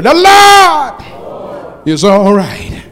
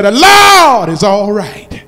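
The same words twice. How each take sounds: First: Drawn out, loud and high, every word stretched; slow shouted call. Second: Said in the usual way. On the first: Shown as a demonstration. Preacher leading the congregation in unison, slow rousing shout. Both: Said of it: "say it with me".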